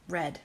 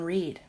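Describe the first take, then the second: First: The vowel is short, like 'red'. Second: The vowel is long, like 'reed'. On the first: The speaker calls it right. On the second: The speaker calls it wrong. "I always say that wrong"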